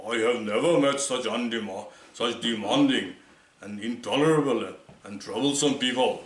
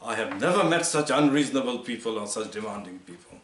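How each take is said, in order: First: A light imitation of a Churchillian British accent, slightly louder; a hint of a Churchillian accent, spoken a touch louder; Churchill's accent. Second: Said in the usual way. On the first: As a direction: mimic Churchill's accent, mildly. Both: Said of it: "he said it in the Churchillian accent".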